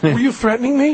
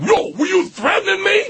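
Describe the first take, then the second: First: High, meek question without a shout; really high voice. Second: Mock shouted challenge, pitched way up; tough confrontational challenge. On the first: Asking the stranger if it was a threat, high and meek. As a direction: ask it timidly in a raised pitch. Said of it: "like, really high voice". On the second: Showing how he did not confront the stranger, mock shout. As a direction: shout it like someone picking a fight. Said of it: "And I'm not saying, like". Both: Shown as a demonstration.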